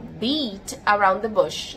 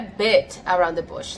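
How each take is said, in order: First: The first word has a long 'ee' vowel. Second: The first word has a short 'i' vowel. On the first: The speaker calls it right. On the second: The speaker calls it wrong. "Não é bit around the bush"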